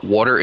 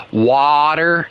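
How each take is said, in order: First: Said in the usual way. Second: "water" drawn out slowly with a long, open first vowel; Nana's proper pronunciation. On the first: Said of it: "when she says water, it's not water". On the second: Retold or imitated. Mocking Nana's maddening properness, "water" said slow and over-proper. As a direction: stretch "water" out, higher, imitating an over-proper Nana. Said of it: "like my Nana, when she says water".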